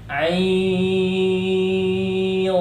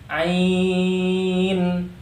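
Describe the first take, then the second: First: The n is hidden in a nasal hum. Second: The n is pronounced clearly and fully. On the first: The speaker calls it right. "dibaca samar" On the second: The speaker calls it wrong. "itu salah, ya, dibaca jelas"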